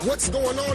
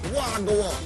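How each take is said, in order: First: It is said as full standard English words. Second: It is said in clipped Jamaican patois form. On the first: The speaker calls it wrong. "if you say, what's going on in Jamaica, you're not going to get answers" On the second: The speaker calls it right. "So you better be able to say"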